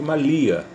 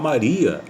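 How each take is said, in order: First: The middle consonant is an L sound. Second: The middle consonant is an R sound. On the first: "vai ser sempre Malia" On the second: "Ele não consegue falar Maria"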